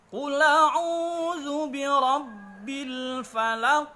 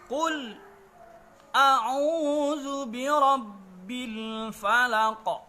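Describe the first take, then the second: First: Qul runs straight into a'udzu without stopping. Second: A brief breathless stop comes after Qul. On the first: "Imam Warash An-Nafi membacanya menjadi" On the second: "dengan disaktahkan, berhenti sejenak sekedar satu alif tanpa bernafas"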